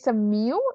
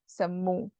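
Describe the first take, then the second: First: The word ends in an 'ew' glide sound. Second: The word ends in a plain 'oo' sound. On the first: The speaker calls it wrong. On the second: The speaker calls it right.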